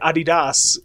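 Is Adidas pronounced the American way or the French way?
French. Adidas is pronounced the French way.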